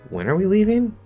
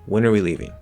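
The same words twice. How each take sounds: First: The voice rises at the end. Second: The voice falls at the end. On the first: The speaker is surprised and wants the time confirmed. "If I rise, this is a form again of passing back" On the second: The speaker wants to learn the missing time. "that also falls"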